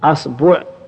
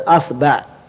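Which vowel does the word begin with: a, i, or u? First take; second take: a; a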